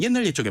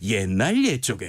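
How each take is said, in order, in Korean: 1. 빠른 속도로 말해요. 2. 천천히 감정을 담아 드라마틱하게 말해요. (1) "좀 더 빠르게 해봐" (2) "좀 드라마틱하게 감정적으로 표현해봐"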